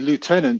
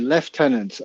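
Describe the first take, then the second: First: It is said with an American pronunciation. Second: It is said with a British pronunciation. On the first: "you say lieutenant" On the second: "we say lieutenant"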